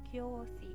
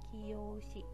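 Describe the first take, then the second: First: It begins with one merged syllable, kyo. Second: It begins with two separate syllables, ki-yo. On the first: The speaker calls it right. "yo-nya harusnya kecil. Yo kecil, kyo" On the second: The speaker calls it wrong. "pelafalan ini kiyoshi, ... Ini salah ya"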